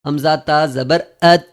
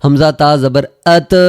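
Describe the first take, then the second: First: ات with the ت held and stopped, no bounce; correct stop. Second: ات with a louder bounce on the ت; wrong qalqalah. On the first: Teacher giving the correct ات after the mistake. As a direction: stop dead on the ت of ات. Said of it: "یہاں پہ ہم بہت بڑی غلطی کریں گے". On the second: Teacher demonstrating the mistake on ات, louder. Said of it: "اگر یہاں پہ ہم قلقلہ کریں گے". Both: Shown as a demonstration.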